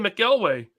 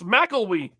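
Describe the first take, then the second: First: The final syllable ends with an 'ay' sound. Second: The final syllable ends with an 'ee' sound. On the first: The speaker calls it wrong. "I've been saying McElway" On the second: The speaker calls it right. "It's McElwee"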